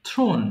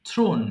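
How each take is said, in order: The two takes are said the same way.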